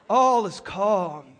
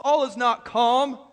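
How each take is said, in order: First: Slow, ironic "All is calm"; drawn-out sarcastic "All is calm"; mock calm. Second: "All is not calm" with NOT pressed, slower; stress on NOT. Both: Shown as a demonstration.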